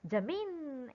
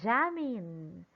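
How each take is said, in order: First: The stress is on the second syllable. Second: The stress is on the first syllable. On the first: The speaker calls it wrong. "Jamin is wrong. That will happen if you put the stress on letter I" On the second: The speaker calls it right. "the stress is on the first syllable"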